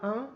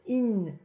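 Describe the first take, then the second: First: It is said as a single nasal vowel. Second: It is said as an 'ee' sound then n. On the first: The speaker calls it wrong. "ça ne se prononce pas un" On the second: The speaker calls it right. "mais In"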